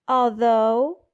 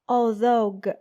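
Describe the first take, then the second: First: The word ends cleanly on its final vowel. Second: An extra consonant sound is added at the end. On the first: The speaker calls it right. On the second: The speaker calls it wrong.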